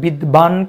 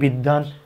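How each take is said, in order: First: The middle consonant is sounded as a 'b'. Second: The middle consonant is a doubled 'd' sound. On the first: The speaker calls it wrong. "কেউ বলি না" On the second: The speaker calls it right. "বলি বিদ্বান"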